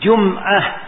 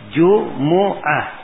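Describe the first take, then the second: First: The m is followed by no vowel. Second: The m is followed by a u vowel. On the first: "Dan bisa disukun" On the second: "Bisa di dhammah"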